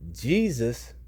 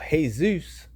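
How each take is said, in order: First: The name begins with a J sound. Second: The name begins with a Y sound.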